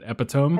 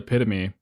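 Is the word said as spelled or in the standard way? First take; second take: as spelled; standard. First: The word is sounded out as it is spelled. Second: The word is said the usual standard way. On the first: The speaker calls it wrong. "he pronounces it epitome" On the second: The speaker calls it right. "he says the word epitome"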